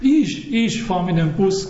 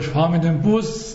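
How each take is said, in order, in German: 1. Betont wird das Wort ich. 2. Betont wird das Wort Bus. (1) "Dann fährst nicht du mit dem Bus, sondern ich" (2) "nicht mit der Eisenbahn"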